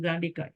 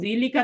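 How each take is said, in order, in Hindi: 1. पहला स्वर long a है। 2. पहला स्वर i की आवाज़ है। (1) "बल्कि खड़ी जबर आती है यहाँ पे" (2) "जीली का तो नहीं करेंगे"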